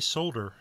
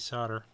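First: The L sound is pronounced, British style. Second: The L sound is silent, American style. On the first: "they don't say solder" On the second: "just like Americans"

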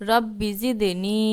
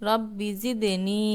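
Both takes have the same delivery.

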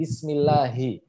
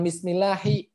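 First: The L in Allah sounds thick and heavy. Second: The L in Allah sounds thin and light. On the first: The speaker calls it right. "Padahal itu harusnya tebal" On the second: The speaker calls it wrong. "bukan Bismillahi"

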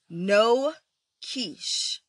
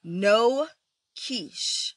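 First: It is said as a firm exclamation. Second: The same.

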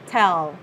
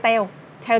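First: The word ends with a clear final L. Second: The word ends without a clear final L. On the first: The speaker calls it right. "đọc đúng ha" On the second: The speaker calls it wrong. "đọc sai nè"

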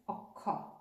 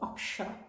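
First: The middle consonant is an aspirated kh without sh. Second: The middle consonant is a k followed by sh. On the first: This is the Bangla pronunciation of the letter. "in Bangla we pronounce it as akha" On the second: This is the Hindi pronunciation of the letter. "In Hindi they pronounce it as ka and sha"

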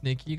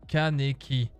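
First: The K and N are said together, no vowel. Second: A vowel is heard between the K and N. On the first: "moi j'ai envie de dire Kneki quand même" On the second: "Respectez-le et prononcez Kaneki"

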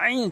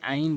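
First: The opening sound is pressed from the throat. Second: The opening sound is plain, without throat pressure. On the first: The speaker calls it right. "আইন চাপ দিয়ে বলবেন" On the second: The speaker calls it wrong. "কখনো আইন বলবেন না"

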